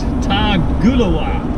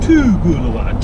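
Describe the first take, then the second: First: The name begins with a 'tar' sound. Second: The name begins with a 'too' sound. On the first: The speaker calls it wrong. "I said it wrong" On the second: The speaker calls it right. "It's Toogoolawah"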